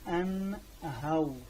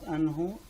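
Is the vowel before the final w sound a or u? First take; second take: a; u. First: The h is followed by an a, then w. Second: The h is followed by a long u sound. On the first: The speaker calls it right. "the ha will take فتحة. So the waw it will take سكون" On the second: The speaker calls it wrong. "No, it's not"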